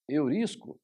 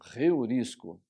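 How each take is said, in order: First: The word starts with a plain vowel, no breath. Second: The word starts with a breathy h sound. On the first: The speaker calls it wrong. "ou eurisco? Não" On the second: The speaker calls it right. "aspiração forte"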